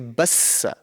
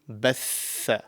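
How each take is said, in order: First: The middle consonant is an s sound. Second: The middle consonant is a th sound. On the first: The speaker calls it wrong. "some people may pronounce it wrong and say bassa as the seen" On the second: The speaker calls it right. "the correct pronunciation over here would be"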